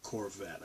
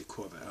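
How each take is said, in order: First: Corvette with a sounded r; non-Boston pronunciation. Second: Corvette in a Boston accent. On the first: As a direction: say Corvette without Boston accent. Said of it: "I'm not Corvette". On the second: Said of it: "I say Corvette". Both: Shown as a demonstration.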